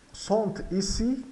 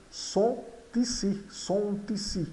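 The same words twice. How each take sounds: First: "sont ici" with T ending the first word; words taken apart. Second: "sont ici" as "son-tici"; T liaison. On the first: Teacher takes the phrase apart, "sont ici" word by word. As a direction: separate "sont" from "ici", sounding the T. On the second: Teacher shows the link for learners, "sont ici" as "son-tici". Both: Shown as a demonstration. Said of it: "ocorre aqui uma ligação do T".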